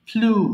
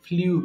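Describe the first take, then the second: First: No y-glide comes before the vowel: 'floo'. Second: A y-glide comes before the vowel: 'flyoo'. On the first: The speaker calls it right. "এটার উচ্চারণ হবে ফ্লু" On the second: The speaker calls it wrong. "আমরা ভুল করে এটাকে ফ্লিউ বলি"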